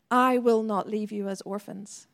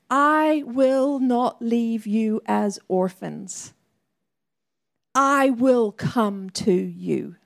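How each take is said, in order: First: Said in the usual way. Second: Slow, weighty reading of Jesus' promise; solemn scripture quote. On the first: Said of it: "the Father is saying". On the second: Shown as a demonstration. Preacher quoting Jesus to the church, slow and solemn. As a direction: let each word land, slowly. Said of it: "he says these words".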